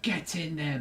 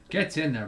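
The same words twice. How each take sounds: First: It is said in a British accent. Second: It is said in an American accent. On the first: The speaker calls it right. "I should have said" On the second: The speaker calls it wrong. "I said get in there in an American accent"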